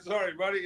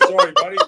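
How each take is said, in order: First: Said in the usual way. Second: Sorry squeaked out much higher and louder; hammed-up high apology; mock apology. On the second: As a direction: yelp sorry, buddy high and loud like a startled apology. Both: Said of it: "I said".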